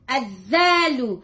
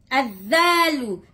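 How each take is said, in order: No difference in how they are said.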